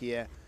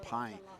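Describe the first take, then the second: First: It sounds unlike the English word pie. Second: It sounds like the English word pie. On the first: The speaker calls it right. "It's actually ... the pronunciation is obviously slightly different" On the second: The speaker calls it wrong. "for any English speaker to reach it, it's not pie"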